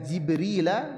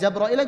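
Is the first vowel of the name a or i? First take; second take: i; a. First: The first vowel is i, with no a-i. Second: The first vowel is a, with a-i later. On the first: "jim kasrah" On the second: "juga bisa"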